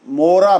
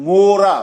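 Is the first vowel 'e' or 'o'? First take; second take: o; o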